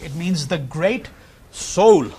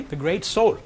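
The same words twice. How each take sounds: First: Slow it down and land hard on soul; stress on soul. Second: Said in the usual way. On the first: Shown as a demonstration. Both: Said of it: "let me emphasize that".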